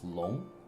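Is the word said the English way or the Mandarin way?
Mandarin. The word is said with Mandarin pronunciation. The speaker calls it right. "in Chinese... It's long"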